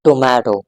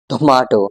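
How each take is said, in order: First: It is said with an American accent. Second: It is said with a British accent. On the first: "American English, on the other hand" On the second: "this is actually called received pronunciation"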